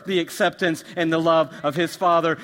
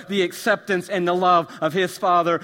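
No difference in how they are said.

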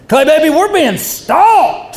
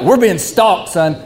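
First: Much higher, slow, drawn-out preacher proclamation; Pentecostal preacher. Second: The wrong way. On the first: Retold or imitated. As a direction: preach the warning like a revival preacher. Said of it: "like a Pentecostal preacher". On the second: Shown as a demonstration. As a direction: say it as a simple warning to your son. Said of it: "he didn't say it like".

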